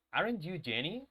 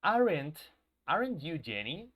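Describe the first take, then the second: First: Said in the usual way. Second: AREN'T stressed and rising; teacher modelling "aren't you Jenny" with a rising question; negative question demo. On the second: Shown as a demonstration. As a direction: lean on the word "Aren't" and lift the end. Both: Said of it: "Si yo dijera".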